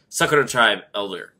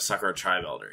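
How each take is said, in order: First: The name is phrased as a hyphenated compound. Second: The name is phrased without the hyphen grouping. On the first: "pronounce the hyphenated version" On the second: "instead of"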